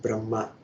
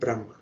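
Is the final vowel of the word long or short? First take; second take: long; short. First: The final vowel is long. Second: The final vowel is short. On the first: The four-headed creator god. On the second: The supreme formless absolute. "with short a at the end"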